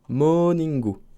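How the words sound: It is said Japanese-style with a final vowel. "pour dire morning, tu dis morningu"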